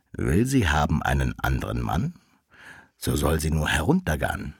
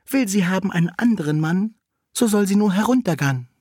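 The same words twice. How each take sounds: First: Low wolf making a proposal; lowered, deliberate wolf voice; wolf suitor. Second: Very high cat messenger; high voice, quicker at the end; maid cat. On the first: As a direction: speak the rhyme deep, as the wolf. Wolf proposes through the cat. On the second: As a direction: pipe the rhyme way up high, as the cat. Cat relays the wolf's proposal. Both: A narrator's reading.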